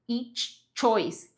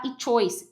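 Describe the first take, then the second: First: The ch sound is said twice in a row. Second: The ch sound is said only once. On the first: The speaker calls it right. "você tem que fazer esse ch duas vezes seguidas" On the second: The speaker calls it wrong. "Tem gente que tem a tendência de falar each choice, each choice, mas isso não acontece"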